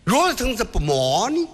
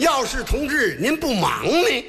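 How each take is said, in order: First: It is said fast and slurred. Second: It is said slowly and clearly.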